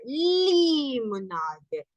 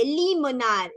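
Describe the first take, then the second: First: LIMONADE very slow, first syllable stretched long; drawn-out gliding L. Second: LIMONADE said a little slowly; gliding L. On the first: ("limonade" muy alargada, deslizando la L) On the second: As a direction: slide from the L through "limonade". ("limonade" deslizada, algo lenta) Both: Shown as a demonstration. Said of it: "así como que vamos en deslizadero".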